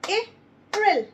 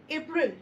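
First: April called out high and loud, drawn out; emphatic April. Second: Said in the usual way. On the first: Shown as a demonstration. Teacher showing a two-syllable word, loud April. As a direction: sing out April for the class. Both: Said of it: "So it's a two-syllable".

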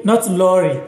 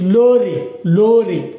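First: "lorry" said with English r and final "ee", "lɔri"; the English way, "lorry" ending in "ee". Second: "lorry" said "lore", the final vowel open like "eh"; Ghanaian "lorry". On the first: Teacher contrasting English pronunciation, mild. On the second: Teacher showing Ghana pronunciation of lorry. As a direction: say "lorry" as "lo-reh", no English r-sound at the end. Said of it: "not lorry, but lorry". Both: Shown as a demonstration.

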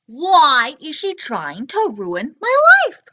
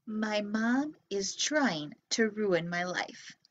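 First: Put-on louder, slow, outraged kid reading; dramatic complaint. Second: Put-on softer, slow sulky kid voice; imitating kid's complaint. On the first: A narrator's reading. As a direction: wail it like a wronged child. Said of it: "book's child complains". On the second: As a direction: grumble it like a grumpy child. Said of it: "maybe you're thinking".

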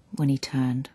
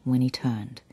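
The two takes are said the same way.

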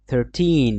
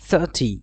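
First: Thirteen with a long, held "teeen"; long -teen. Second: Thirty with a quick, falling "tee"; short -ty. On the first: Teacher contrasting it with thirty, long -teen. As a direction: stretch the end of thirteen. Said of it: "আর এটা কি হবে?". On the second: Teacher contrasting it with thirteen, short -ty. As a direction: cut the end of thirty short. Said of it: "এটা কি উচ্চারণ হবে?". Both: Shown as a demonstration.

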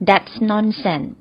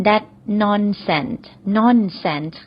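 First: Very slow, careful teaching read; slow model phrase. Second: Very slow, careful repeat; slow model phrase. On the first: Teacher slowly models the phrase for learners. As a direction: spell out each sound for the class to copy. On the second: Teacher repeats the phrase slowly for learners. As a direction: stretch every syllable so students can copy. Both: Shown as a demonstration. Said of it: "เราก็ใช้สำนวนนี้ก็ได้ค่ะ".

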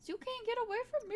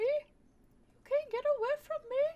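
First: Said in the usual way. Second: Slow, higher, louder spooky threat; menacing villain voice. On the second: Acted. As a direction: stretch it out like a movie stalker.

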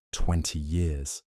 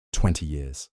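First: Musing. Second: Said in the usual way. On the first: A narrator's reading. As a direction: turn the words over slowly, half to himself. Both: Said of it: "the doctor mused".

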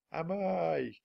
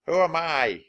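First: Distant echo. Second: Higher, loud call into the canyon; shouting. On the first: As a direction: let "Am I?" drift back from far off. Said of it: "came the distant voice". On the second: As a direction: cup hands and shout "Who am I?". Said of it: "he shouted". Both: Acted.

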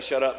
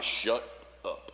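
First: Said in the usual way. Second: Low, hushed command, words set apart; Jesus. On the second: Acted. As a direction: quietly order silence, pausing between the words. Voicing Jesus confronting the spirit.

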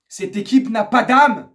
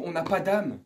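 First: Loud, slow, hammered indictment; angry emphasis. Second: Said in the usual way. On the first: Real, not acted. Fan declaring the team has no soul, angry. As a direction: drag out and punch "pas d'âme". Repeats it forcefully.

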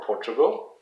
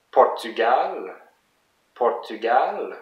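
First: Said in the usual way. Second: French "Portugal", long stressed "gal"; French pronunciation. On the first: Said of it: "For Portugal". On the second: Shown as a demonstration. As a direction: model "Portugal" the French way, weight at the end. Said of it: "some of the country names in French".

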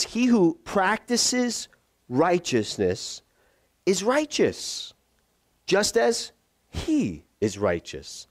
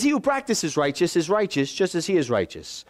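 First: Very slow, each phrase set apart; measured, emphatic, drawn-out reading; deliberate verse reading. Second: Brisker, matter-of-fact scripture repeat; straight-through verse reading. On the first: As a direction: read the scripture slowly with weighty pauses. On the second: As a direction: run through the verse without pauses. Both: Shown as a demonstration.

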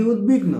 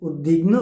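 First: উদ্বিগ্ন said "ut-big-no", the d hardened to t; উদ্বিগ্ন with a hard t before the b; second pronunciation option. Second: উদ্বিগ্ন said as "ud-big-no" with the ব sounded; উদ্বিগ্ন with a clear b after ud; first pronunciation option. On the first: Teacher asks which version is right, questioning. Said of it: "নাকি উদ্বিগ্ন?". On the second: Teacher poses the first of two ways to say it, carefully. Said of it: "এই শব্দটির শুদ্ধ উচ্চারণ কি?". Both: Shown as a demonstration.

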